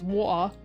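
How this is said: The T in the middle is dropped. The speaker sounds less upper class. "the non-posh accent is water"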